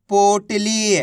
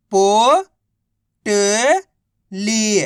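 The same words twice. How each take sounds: First: Said in the usual way. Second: Drawn out very slowly, each syllable of पोटली held apart; slow phonics spelling-out. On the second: Shown as a demonstration. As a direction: stretch पोटली into separate slow syllables for a child. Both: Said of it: "तो मिलके बन जाएगा".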